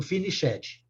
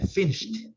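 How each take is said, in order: First: FINISHED misread as "fi-ni-SHEH-djee"; wrong pronunciation. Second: FINISHED as "FI-nisht", two syllables; correct pronunciation. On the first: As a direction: sound out the ED in FINISHED as a stressed syllable. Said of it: "Não pode falar o". (FINISHED errado, como "finichédji") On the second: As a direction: say FINISHED with silent E and final T. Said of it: "É finished". (FINISHED correto, "fínisht", forte na primeira sílaba) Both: Shown as a demonstration.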